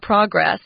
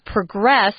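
First: The stress is on the first syllable. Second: The stress is on the second syllable. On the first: It is used as a noun. The speaker calls it wrong. "not progress" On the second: It is used as a verb. The speaker calls it right. "we're using the verb form, so it's progress"

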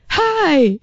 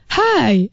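First: It is said in a lively, upbeat way. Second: It is said in a plain, flat way.

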